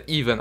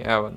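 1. Слово начинается с долгого гласного 'ee'. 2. Слово начинается с краткого гласного 'e'. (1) "он читается Even" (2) "а не Эван"

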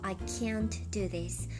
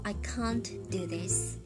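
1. Can'tには平らで前寄りの'a'の母音があります。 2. Can'tには長く開いた'ah'の母音があります。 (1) "アメリカ英語は" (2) "イギリス英語は"

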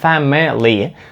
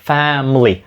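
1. Кожен склад вимовляється повністю і окремо. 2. Склади після першого зливаються разом. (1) "тоді якраз це звучить неправильно" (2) "fam звучить чітко, мли просто як один злитний звук"

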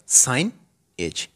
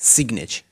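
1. पहला अक्षर 'sign' की तरह बोला जाता है। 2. पहला अक्षर 'sig' की तरह बोला जाता है। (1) "ये है साइन एज" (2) "नहीं सिग्नेज नहीं है"

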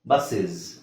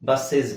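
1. ಎರಡನೇ ಉಚ್ಚಾರಾಂಶದಲ್ಲಿ ಚಿಕ್ಕ uh ಸ್ವರ ಇದೆ. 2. ಎರಡನೇ ಉಚ್ಚಾರಾಂಶದಲ್ಲಿ ಚಿಕ್ಕ uh ಸ್ವರ ಇದೆ.

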